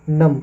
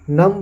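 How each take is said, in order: First: The word ends on m, with no b. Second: The word ends with an audible b sound. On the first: The speaker calls it right. "इसको हम नम पढ़ेंगे" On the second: The speaker calls it wrong. "नम्ब है लेकिन"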